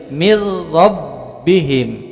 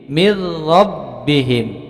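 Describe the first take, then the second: First: The n merges into a doubled r. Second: The same.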